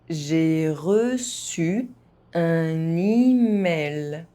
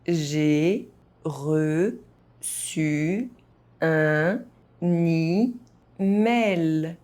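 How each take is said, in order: First: It is spoken at an ordinary, moderate pace. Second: It is spoken very slowly, syllable by syllable. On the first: "at a normal pace" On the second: "very slowly"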